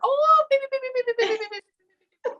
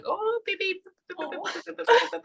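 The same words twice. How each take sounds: First: Extremely high squeaky beeps, louder; mock shrill beeping voice; high-pitched annoying voice. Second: Very high, squeaky beeps; imitating a shrill beep-beep voice. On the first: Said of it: "high pitched, annoying". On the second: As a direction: mimic a piercing high-pitched beeping. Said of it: "like that".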